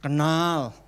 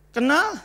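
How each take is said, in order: First: Devil answering. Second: Higher, rising challenge; God pushing back at the devil; God questioning. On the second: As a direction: press the devil with a sharp question. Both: Acted. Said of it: "Tuhan tanya".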